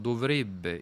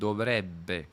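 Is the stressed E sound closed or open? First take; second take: closed; open. First: The stressed E is a closed vowel. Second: The stressed E is an open vowel. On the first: This is how people from Rome say it. The speaker calls it wrong. "Dicono dovrebbe" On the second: This is the standard pronunciation. The speaker calls it right. "invece di dovrebbe, con la E aperta"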